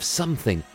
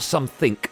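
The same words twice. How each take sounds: First: The word ends with a G sound. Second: The word ends with a K sound. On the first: The speaker calls it right. "There's a G on the end" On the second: The speaker calls it wrong. "not a K"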